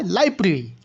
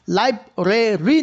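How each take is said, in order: First: লাইব্রেরি squeezed to "laib-ri"; syncope, e dropped. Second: লাইব্রেরি in three syllables, "lai-bre-ri"; unshortened form. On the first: Teacher answers own question for students, লাইব্রেরি as "laibri". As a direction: say লাইব্রেরি without its middle e. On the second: Teacher shows what isn't said, লাইব্রেরি as "lai-bre-ri". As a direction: sound the middle e in লাইব্রেরি. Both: Shown as a demonstration. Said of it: "না বলে কি বলা হয়".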